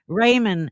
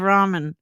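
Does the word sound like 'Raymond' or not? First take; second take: like Raymond; not Raymond. First: The word is said to sound like Raymond. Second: The word is said not sounding like Raymond. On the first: The speaker calls it wrong. "when she says Italian or ramen" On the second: The speaker calls it right. "instead of ramen"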